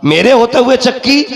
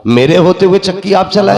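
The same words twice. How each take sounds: First: High, rising incredulous repeat; ringing acted disbelief, rising at the end; incredulous question. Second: Raised, declaimed protest; proclaimed objection, pitched up; acted protest. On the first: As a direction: throw it out as an astonished question. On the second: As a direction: quote it as a respectful objection. Gabriel's protest voiced by preacher.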